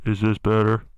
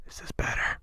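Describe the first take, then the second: First: Said in the usual way. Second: Hushed, muffled by the hand; muffled mic. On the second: Shown as a demonstration. Testing mic muffling for the impression, muffled and soft. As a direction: cover the mic and ask quietly. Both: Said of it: "Muffle the mic".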